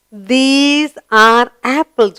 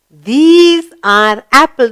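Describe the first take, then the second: First: Slow, clear model reading; slow model sentence. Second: Slow, clear model reading; slow answer model. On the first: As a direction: stretch it out for the learners. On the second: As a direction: give the answer slowly for the class. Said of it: "What are they?". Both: Shown as a demonstration.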